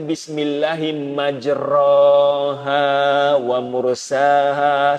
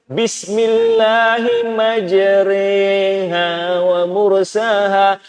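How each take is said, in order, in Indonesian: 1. Vokal setelah r adalah a biasa yang terbuka. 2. Vokal setelah r condong dari a ke i. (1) "dia akan baca Bismillahi majraha wa mursaha sebab dia baris atas" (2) "kita baca dengan cara imalah"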